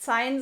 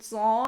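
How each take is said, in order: First: The name has an 'ai' diphthong, as spelled. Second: The name has a plain 'a' vowel, French-style. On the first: The speaker calls it wrong. "Ich werde auf jeden Fall jetzt Zain sagen, weil so habe ich es auch gelesen" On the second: The speaker calls it right. "Also man spricht es bestimmt Zan aus"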